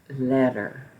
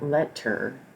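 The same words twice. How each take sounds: First: The middle consonant is a soft D-like tap. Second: The middle consonant is a crisp T. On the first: The speaker calls it right. "but the word is letter" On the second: The speaker calls it wrong. "not letter"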